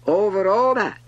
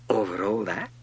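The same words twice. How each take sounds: First: High, very loud grand declaration; imperious king. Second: Modest, wondering question; questioning little prince. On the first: King answering the prince, loud and grand. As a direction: proclaim it with total authority. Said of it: "the king answered". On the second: Little prince asking the king, mildly wondering. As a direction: ask it in simple wonder. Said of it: "asked the little prince". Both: A narrator's reading.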